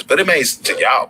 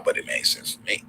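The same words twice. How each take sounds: First: Higher and louder, playful punch; louder joking emphasis. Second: Unvoiced whispered punchline; whispered aside. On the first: Joking to his stream chat, raised and loud. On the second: Joking aside to himself after the chat line, whispered. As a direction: drop to a whisper for the joke. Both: Real, not acted.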